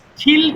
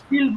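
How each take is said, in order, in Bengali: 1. t ধ্বনিটি জোরালো শ্বাসের সঙ্গে বলা হয়। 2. t ধ্বনিটি শ্বাস ছাড়া বলা হয়। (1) "এখানে স্টিল কেন বলিনি" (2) "শুধু স্টিল বলেছি কেন"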